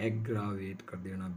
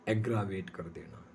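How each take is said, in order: Both takes have the same delivery.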